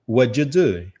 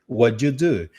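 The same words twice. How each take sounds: First: The words are reduced and run together. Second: The words are reduced and run together.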